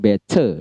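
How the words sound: The middle consonant is a clear t. "bukan better lagi seperti British"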